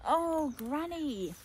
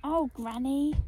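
First: Slow, higher falling Oh, Granny; a drawn-out mock wail at the mess; dismayed cry. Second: Higher, louder Oh, Granny with a rising lift; a fond, happy call to granny; affectionate smile. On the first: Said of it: "I cried". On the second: Acted. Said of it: "I smiled".

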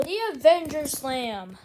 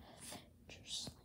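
First: Said in the usual way. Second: Breathy whispered echo. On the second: Acted. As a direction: whisper the move name. Whispered echo of move name.

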